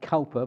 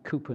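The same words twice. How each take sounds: First: The first syllable sounds like 'cow'. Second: The first syllable sounds like 'coo'. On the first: The speaker calls it wrong. "It looks like you ought to be pronounced Cowper" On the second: The speaker calls it right. "that you pronounce it Cowper"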